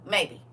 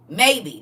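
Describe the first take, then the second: First: Said in the usual way. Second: Maybe said loud and high; stress on maybe. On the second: Shown as a demonstration. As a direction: punch the word Maybe. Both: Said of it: "Not they will".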